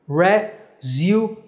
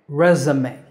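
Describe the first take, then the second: First: It is said in a British accent. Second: It is said in an American accent. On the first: "In British English, it's pronounced resume" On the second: "it's pronounced resume in American English"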